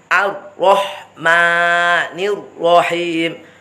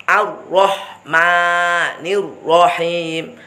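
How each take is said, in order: Both takes have the same delivery.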